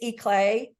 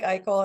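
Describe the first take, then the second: First: The name sounds like 'eclair' without the r. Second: The name sounds like 'eye' followed by 'kel'. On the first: This is the family's own pronunciation. "It's Eclay" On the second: This is how the spelling suggests it is said. "it looks like Eichel, and I answer to Eichel"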